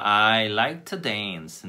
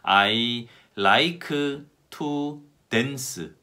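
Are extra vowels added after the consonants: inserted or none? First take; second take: none; inserted. First: The consonants end words without any extra vowels. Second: Extra vowels follow the final consonants of words. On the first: The speaker calls it right. "올바른 발음은" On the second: The speaker calls it wrong. "근데 이 문장을 어떻게 발음하냐 하면"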